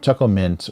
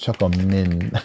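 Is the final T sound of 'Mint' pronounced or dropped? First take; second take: pronounced; dropped. First: The final T sound in mint is pronounced. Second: The final T sound in mint is dropped.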